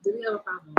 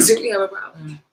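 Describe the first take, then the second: First: Squeaky high mock challenge through a laugh; sarcastic squeak of a challenge. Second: Louder laughing challenge at normal pitch; mock confrontation through a laugh. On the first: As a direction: laugh it out in a much higher voice. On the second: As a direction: laugh while squaring up. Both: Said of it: "with an attitude".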